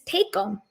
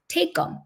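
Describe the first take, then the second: First: Said in the usual way. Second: High emphatic. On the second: Shown as a demonstration. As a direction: Take 'em said high, jumped up. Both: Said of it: "Take 'em".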